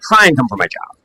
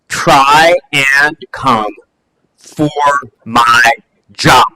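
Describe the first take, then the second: First: The line is mumbled quietly, like an afterthought. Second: The line is delivered with force and emphasis. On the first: It is a throwaway remark. "she kind of mumbles" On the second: It is a pointed challenge to the audience. "she hits it"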